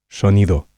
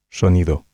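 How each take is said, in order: First: The S is soft and slightly hushed, like sh. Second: The S is soft and slightly hushed, like sh.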